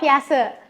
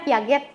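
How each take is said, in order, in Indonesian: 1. Akhirannya dilembutkan, gaya Prancis. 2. Setiap huruf dibunyikan sesuai tulisannya.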